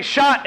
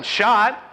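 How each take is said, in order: First: Higher, louder call of "Shot"; mock team shout. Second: Said in the usual way. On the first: Shown as a demonstration. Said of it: "the entire team starts screaming it". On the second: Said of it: "one guy yelling".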